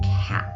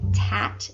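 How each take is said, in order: First: The word starts with a K sound. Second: The word starts with a T sound. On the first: "instead of cat" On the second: "he'll say tat instead of cat"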